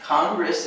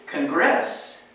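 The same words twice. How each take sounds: First: Congress stressed on CON, the first syllable; correct stress. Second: Congress stressed on GRESS, the second syllable; wrong stress. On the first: Teacher gives the correct stress for Congress. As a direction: put the weight on CON in Congress. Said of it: "is right". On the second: Teacher shows a wrong stress on Congress. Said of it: "You could say Congress". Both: Shown as a demonstration.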